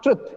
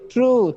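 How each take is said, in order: First: The vowel is short. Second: The vowel is long. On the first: The speaker calls it wrong. "It is not truth" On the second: The speaker calls it right. "It's a long sound"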